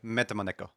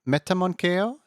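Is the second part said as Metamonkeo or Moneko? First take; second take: Moneko; Metamonkeo. First: The name is said as 'Meta Moneko'. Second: The name is said with an extra 'monk' sound. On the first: The speaker calls it right. "Moneko is fine" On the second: The speaker calls it wrong. "is that how you say it?"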